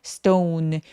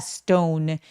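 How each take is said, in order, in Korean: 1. 모음을 길게 늘여서 발음해요. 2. 모음을 길게 늘여서 발음해요.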